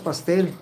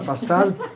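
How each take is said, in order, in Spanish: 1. La última sílaba tiene la vocal 'e'. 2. La última sílaba tiene la vocal 'a'. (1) "Sí, es pastel" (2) "mi hija decía pastal. Porque no, nunca pronunció la E"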